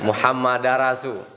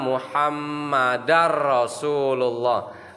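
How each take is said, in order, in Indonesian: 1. Bunyi m pendek, tidak dobel. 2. Bunyi m dobel dan ditekan. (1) "berarti sabdu di mimnya mati. Eh, hilang" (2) "Jadi harus di, ditekan"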